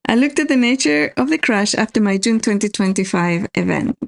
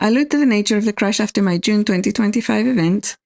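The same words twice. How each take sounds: First: It is read slowly. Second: It is read fast.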